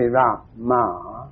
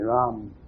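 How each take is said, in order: First: The M is pronounced openly and fully. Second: The M is swallowed, drawn inward. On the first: The speaker calls it wrong. "you don't say Rama" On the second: The speaker calls it right. "you should swallow the M"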